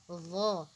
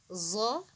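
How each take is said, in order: First: It begins with a tongue-between-teeth th sound. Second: It begins with a buzzing z sound. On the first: The speaker calls it right. "sebenarnya pengucapannya bukan zo tapi dha" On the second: The speaker calls it wrong. "Jadi bukan zo. Kalau biasanya kan zo kan"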